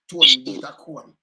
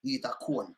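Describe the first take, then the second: First: Louder, slow Tone eat a cone; punchline. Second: Said in the usual way. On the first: Real, not acted. Delivering the punchline to the host, louder. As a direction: land the joke.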